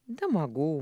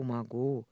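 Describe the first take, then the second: First: Said in the usual way. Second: "могу" lower on a sigh; tired sighing "могу". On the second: Acted. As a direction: let the breath out on "могу". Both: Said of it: "вздохнул он".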